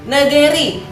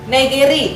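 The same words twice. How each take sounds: The two takes are said the same way.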